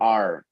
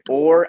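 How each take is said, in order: First: The vowel is an open A sound. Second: The vowel is a closed, rounded O sound. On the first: "con la A abierta" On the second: "con la O bien cerrada"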